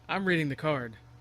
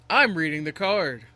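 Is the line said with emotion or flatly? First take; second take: flat; emotional. First: It is said flatly, without emotion. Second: It is said with noticeable emotion.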